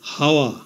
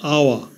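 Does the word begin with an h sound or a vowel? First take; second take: h sound; vowel. First: The word begins with an h sound. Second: The word begins directly with a vowel. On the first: The speaker calls it wrong. "প্রথমে h ধরে উচ্চারণ করলে হয়" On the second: The speaker calls it right. "h এর উচ্চারণ না হয়ে vowel ও থেকে উচ্চারণ শুরু হয়েছে"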